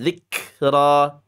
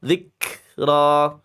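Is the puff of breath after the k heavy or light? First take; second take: heavy; heavy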